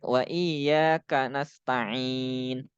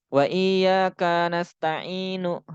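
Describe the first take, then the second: First: "iyyaka" with long YA, short KA; slow recital, quick ka into "nasta'in"; ka dibaca pendek. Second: "iyyaka" with KA wrongly held long; ka dibaca panjang. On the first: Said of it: "Itu ka-nya pendek". ("iyyaka" dengan ka pendek) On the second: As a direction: stretch the ka of "iyyaka" before "nasta'inu". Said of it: "setelahnya dibaca panjang lagi". ("iyyaka" dengan ka dipanjangkan) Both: Shown as a demonstration.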